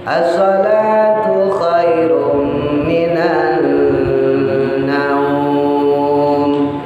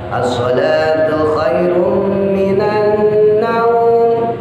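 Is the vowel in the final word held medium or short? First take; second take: medium; short. First: The final vowel is held for four counts. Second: The final vowel is held for two counts. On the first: "Boleh dibaca empat" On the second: "Boleh dibaca dua"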